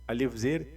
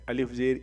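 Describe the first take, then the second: No difference in how they are said.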